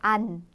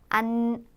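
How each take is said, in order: First: The syllable is said plainly without nasal resonance. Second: The syllable is said with strong nasal resonance. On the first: The speaker calls it wrong. "우리나라 사람들이 안을 발음하듯이 담백하게 안, 안 이렇게 발음하시면 안 되고요" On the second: The speaker calls it right. "안 콧소리 같이 내주세요"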